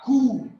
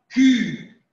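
First: The vowel is a back 'oo' sound. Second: The vowel is a fronted, rounded French 'u'. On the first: The speaker calls it wrong. "pas cou" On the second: The speaker calls it right. "le C et le U se prononcent Q"

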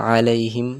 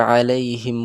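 The two takes are said the same way.

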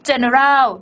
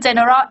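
First: It is said with a heavy, exaggerated accent. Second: It is said with a plain, unexaggerated accent. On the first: The speaker calls it wrong. "สำเนียงให้หรือเปล่าคะโอ้โหฝรั่งฟังไม่เข้าใจนะ" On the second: The speaker calls it right. "เอาอย่างนี้ดีกว่านะคะ"

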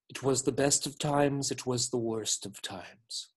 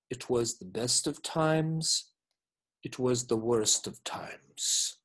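First: The two halves run together without a pause. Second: The two halves are split by a clear pause.

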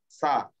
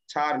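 First: The word begins with an 's' sound. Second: The word begins with a 'ch' sound. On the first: The speaker calls it right. "This should be sar" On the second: The speaker calls it wrong. "Char, not char"

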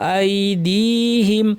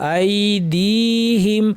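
No difference in how they are said.

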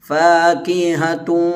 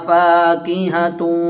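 No difference in how they are said.

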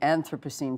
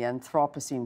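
First: It is pronounced the American way. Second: It is pronounced the European way. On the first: "sort of an American way of saying it" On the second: "a European way of saying it"

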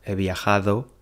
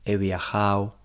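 First: The d sound in the ending is pronounced. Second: The d sound in the ending is dropped. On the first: The speaker calls it right. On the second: The speaker calls it wrong.

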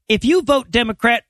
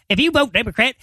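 First: It is said in the speaker's ordinary voice. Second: It is said in an imitated, put-on voice.

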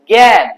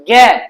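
The two takes are said the same way.

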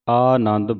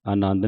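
First: The first vowel is a long aa. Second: The first vowel is a short a. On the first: The speaker calls it right. "ਆਨੰਦ ਬੋਲਣਾ, ਐੜੇ ਕੰਨਾ ਲੱਗਾ ਹੈ" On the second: The speaker calls it wrong. "ਆਨੰਦ ਨਹੀਂ ਕਹਿ ਦੇਣਾ"

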